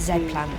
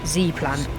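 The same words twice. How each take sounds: First: The letter Z is said the non-American way. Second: The letter Z is said the American way.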